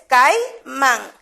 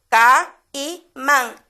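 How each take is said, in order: First: "caimán" split slowly as cai-mán, keeping the diphthong; "caimán" pronounced cai-mán, slow and clear; correct syllables. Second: "caimán" split slowly into three, ca-i-mán, breaking the diphthong; "caimán" dragged out as ca-i-mán, wrong on purpose; wrong syllables. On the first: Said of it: "Y es caimán". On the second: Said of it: "No podemos decir caimán". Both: Shown as a demonstration.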